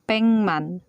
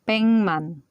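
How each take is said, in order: First: The first syllable ends in an ng sound. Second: The first syllable ends in an ng sound.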